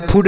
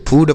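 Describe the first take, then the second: First: फूड with a short, quick u; wrong short vowel. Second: फूड with a long oo; correct long vowel. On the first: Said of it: "छोटाऊ की मात्रा नहीं लगाएंगे". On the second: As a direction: stretch the vowel of फूड, like "food". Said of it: "फूड पढ़ते हैं". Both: Shown as a demonstration.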